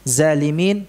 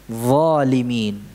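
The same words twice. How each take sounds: First: The first consonant is a buzzing z sound. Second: The first consonant is a heavy th sound. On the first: The speaker calls it wrong. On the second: The speaker calls it right.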